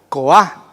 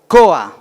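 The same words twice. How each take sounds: First: The stress is on the second syllable. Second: The stress is on the first syllable. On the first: The speaker calls it wrong. "si fuese la vocal tónica o la fuerte, la A diría" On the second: The speaker calls it right. "en esta palabra la sílaba fuerte es O"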